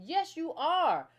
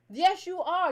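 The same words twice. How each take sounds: First: "Yes, you are" drawn out slowly, each word weighed; slow insistent "Yes, you are"; emphatic. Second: "Yes, you are" higher and louder, hitting "Yes"; emphatic. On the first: Host insists to listeners they are American, slow and firm. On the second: Host repeats to listeners they are American, louder and insistent. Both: Real, not acted. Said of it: "that you're not American".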